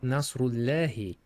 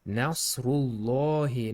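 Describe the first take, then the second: First: The l sound is light and thin. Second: The l sound is heavy and full. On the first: The speaker calls it wrong. "not Nasrullahi" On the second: The speaker calls it right. "pronounce this word bolder. There is tafhim also"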